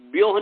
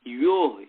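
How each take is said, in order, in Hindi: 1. v ध्वनि, y ध्वनि से पहले आती है। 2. y ध्वनि, v ध्वनि से पहले आती है। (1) "व्योह नहीं करना है" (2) "य य पहले"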